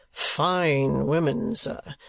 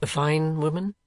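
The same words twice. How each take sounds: First: "Fine women" drawn out very slowly, falling, weight on "Fine"; slow emphatic repeat. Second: Said in the usual way. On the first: A narrator's reading. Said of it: "replied the collector". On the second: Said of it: "asked Nicholas".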